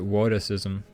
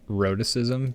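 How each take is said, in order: First: The word begins with a W sound instead. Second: The word begins with a clear R sound.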